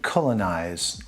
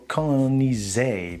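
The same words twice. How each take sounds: First: The word ends without a sounded final E. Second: The word ends with a sounded final E.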